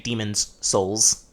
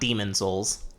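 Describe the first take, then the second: First: An s sound follows the word Demon. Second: No s sound follows the word Demon. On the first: The speaker calls it right. "make sure you say Demon's Souls" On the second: The speaker calls it wrong. "not Demon Souls"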